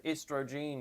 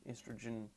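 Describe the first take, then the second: First: "estrogen" ending in a long -jeen; misspelling read out. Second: Said in the usual way. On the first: Acted. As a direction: read "estrogen" as misspelt, last syllable like "jean". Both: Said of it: "spelled estrogen wrong".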